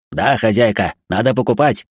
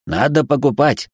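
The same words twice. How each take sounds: First: Demanding robot. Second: Pushy robot, higher; insistent robot. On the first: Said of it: "вновь потребовал от нас робот". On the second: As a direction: keep pushing, robot voice. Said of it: "настойчиво проговорил робот". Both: Acted.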